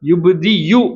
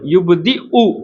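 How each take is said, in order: First: The last syllable starts with a y sound. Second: The last syllable starts with a glottal stop. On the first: The speaker calls it wrong. "யா மாதிரி யுப் தி யு அப்படின்னு ஓதக்கூடாது" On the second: The speaker calls it right. "யுப் தி உ அப்படிங்கிற மாதிரி ஓதணும்"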